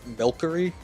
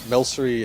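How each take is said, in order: First: The middle consonant is a K sound. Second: The middle consonant is an S sound. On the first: The speaker calls it wrong. "pronouncing it milkery" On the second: The speaker calls it right. "milsery is definitely the easier sounding version and probably the best pronunciation"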